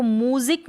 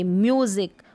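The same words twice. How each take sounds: First: म्यूजिक as "moo-zik", without y glide; mispronunciation demo. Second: म्यूजिक as "myoo-zik", with y glide; yoo pronunciation. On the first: Teacher showing learners the wrong music, mispronunciation demo. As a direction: say म्यूजिक with plain oo after m. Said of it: "अब इसको म्यूजिक नहीं पढ़ेंगे". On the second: Teacher correcting how music is read, yoo pronunciation. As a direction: say म्यूजिक with a long yoo after m. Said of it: "उच्चारण पे ध्यान दें". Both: Shown as a demonstration.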